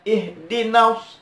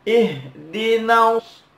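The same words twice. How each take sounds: First: IHDINAS with the "na" cut short; vowel too short. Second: IHDINAS chanted with "na" held a little; slightly lengthened vowel. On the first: Teacher shows what not to do, short na. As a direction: recite "ihdinas" hurrying over the long vowel. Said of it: "Maka agak dipanjangkan". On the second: Teacher shows correct length, slightly held na. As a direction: stretch the na of "Ihdinas" moderately. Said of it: "nunnya agak dipanjangkan". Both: Shown as a demonstration.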